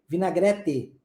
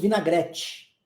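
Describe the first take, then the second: First: The t is a plain, hard t. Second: The t is softened, not a plain t. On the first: This is how the south and north say it. "O T tem som de T" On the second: This is how the southeast region says it. "na nossa região, ... nós falamos vinagrete"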